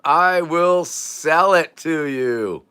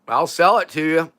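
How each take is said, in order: First: Every word stretched slowly; slow, grandiose promise; drawn-out vow. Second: Said in the usual way. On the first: Pretend. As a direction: draw out "I will sell it to you" word by word.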